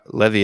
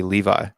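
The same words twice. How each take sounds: First: "Levy" with short e and ee ending; Levy as LEH-vee. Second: "Levi" as LEE-vye, ending like eye; American English Levi. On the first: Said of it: "That wouldn't be". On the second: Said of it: "That's how we would say that". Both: Shown as a demonstration.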